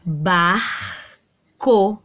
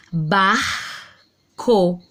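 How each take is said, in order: First: "Barco" repeated with clear R and C; sounded-out word again. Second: "Barco" said with clear R and C; sounded-out word. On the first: Teacher repeating "Barco" for the class, carefully. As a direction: say "Barco" once more, consonants distinct. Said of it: "Ó, de novo". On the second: Teacher to pupils, sounding out "Barco" carefully. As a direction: pronounce "Barco" making each consonant heard. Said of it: "Eu escutei o som do R e eu escutei o som do C". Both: Shown as a demonstration.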